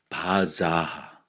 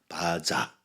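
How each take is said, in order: First: The word ends with a breathy h sound. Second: The word ends plainly without an h sound. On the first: The speaker calls it right. "하 발음이 들어있어" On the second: The speaker calls it wrong. "바자가 아니라"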